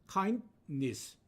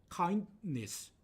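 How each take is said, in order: The two takes are said the same way.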